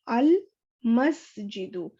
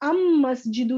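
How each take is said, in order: First: The L is clearly pronounced before the M. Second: The L is merged into the M sound. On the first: The speaker calls it right. "यहाँ पे हमने लाम को clear pronounce किया है" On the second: The speaker calls it wrong. "हमने अम मस्जिदु नहीं कहा"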